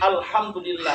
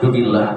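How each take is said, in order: First: Every syllable of the phrase is said fully. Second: The first syllables are dropped, leaving it clipped. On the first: The speaker calls it right. "Kemudian alhamdulillah" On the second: The speaker calls it wrong. "Jangan sampai berubah menjadi dunillah"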